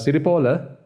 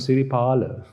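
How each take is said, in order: First: The third vowel sounds like o. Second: The third vowel sounds like a. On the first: The speaker calls it wrong. "Siripala's name was read, uh, Siripola" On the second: The speaker calls it right. "I'm not Siripola, I'm Siripala"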